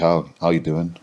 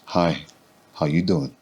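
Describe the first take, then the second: First: The greeting is said in a plain, casual way. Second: The greeting is said in a suggestive, flirty way.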